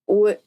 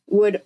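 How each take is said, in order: Both takes have the same delivery.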